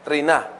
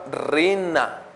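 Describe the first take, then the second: First: Rina with the n held double and the stress on the final a, like rin-NA; corrected pronunciation. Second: Rina said quickly with a single short n and no stress on the final a; first try at Rina. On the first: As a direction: Rina corrected, lean on the last a and hold the n. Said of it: "con acento en la A y doble N". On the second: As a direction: rina as a plain Spanish word, before the correction. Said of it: "Rina, perdón, con acento en la A y doble N". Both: Shown as a demonstration.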